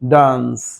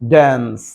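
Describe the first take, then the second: First: The word is said with a British accent. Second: The word is said with an American accent. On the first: "আর এটা হচ্ছে ডান্স, এটা আরো বেশি smart" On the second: "ওদের উচ্চারণ হচ্ছে American ড্যান্স"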